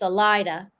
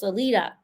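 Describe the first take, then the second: First: The name is pronounced not the Spanish way. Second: The name is pronounced the Spanish way. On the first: The speaker calls it right. "but it's Salida" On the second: The speaker calls it wrong. "in Spanish, you'd think it was Salida"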